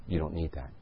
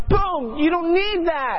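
First: Soft, low murmur of a gentle inner voice; a quiet nudge from within, barely there. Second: Much higher and louder, slow, commanding boom; booming divine voice. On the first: Preacher voicing God's first soft nudge in the store, quietly. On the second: Holy Spirit overpowering the shopper at checkout, booming slow command. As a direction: pounce on the words like a voice from heaven. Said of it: "the Holy Spirit just pounces on me". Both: Retold or imitated.

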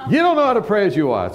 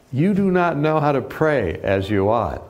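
First: Smug rebuke. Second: Said in the usual way. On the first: Retold or imitated. Tony lectures the speaker on prayer, smug and quick. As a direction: snap it back smugly, higher and quicker.

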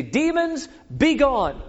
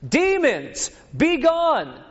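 First: Pitched-up hammed command to demons; mock commanding. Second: Pitched way up and louder, straining; louder mock command. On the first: Disciples commanding the demons, mock grand command. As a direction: bark it like a failed exorcist. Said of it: "they say". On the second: Disciples repeating the command louder, hammed-up yell. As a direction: command them again, harder this time. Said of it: "maybe they just didn't hear us".

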